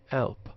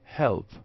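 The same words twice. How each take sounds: First: The word begins with no h sound. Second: The word begins with a clear h sound. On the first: "non-standard help" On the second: "R P help"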